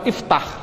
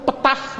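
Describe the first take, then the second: First: The word starts with an "i" vowel before "ft". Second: The word starts directly with the cluster "ft". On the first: The speaker calls it right. "Ini karena fathah bunyinya kasrah" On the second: The speaker calls it wrong. "tidak boleh"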